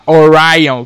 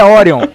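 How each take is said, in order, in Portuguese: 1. O nome é pronunciado com pronúncia inglesa. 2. O nome é pronunciado com pronúncia portuguesa. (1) "que coisa de viado falar assim" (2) "eu duvido que o nome dele se pronuncie como se pronuncia em inglês"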